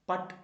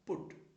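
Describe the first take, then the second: First: The vowel is an open 'uh' sound. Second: The vowel is a short rounded 'oo' sound. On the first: The speaker calls it wrong. "ചിലരൊക്കെ പട്ട് എന്നൊക്കെ പറയാറുണ്ട്. പട്ടല്ല" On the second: The speaker calls it right.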